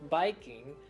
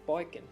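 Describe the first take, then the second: First: It has a plain vowel and a full ing ending. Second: It has an oi vowel and drops the g. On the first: "instead of saying biking" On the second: "you would say boikin"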